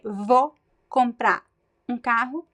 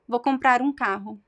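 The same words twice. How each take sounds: First: Some sounds are dropped or shortened. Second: Comprar runs straight into um without a break. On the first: "I could just reduce" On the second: "connect the words comprar um"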